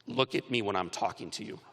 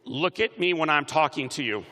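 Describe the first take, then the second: First: Low, restrained order from a dad; stern father. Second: Projected mock-stern command to a crowd; rallying demonstration. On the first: Retold or imitated. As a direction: quietly insist on attention, pitched low. Stern father's words retold in hospital. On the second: Shown as a demonstration. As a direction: call it out for everyone to copy. Leading graduates to say it aloud.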